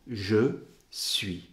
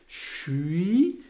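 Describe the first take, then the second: First: The two words are said slowly and separately. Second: The two words blend into one quick syllable. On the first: "si je le dis lentement ou si je le dis bien"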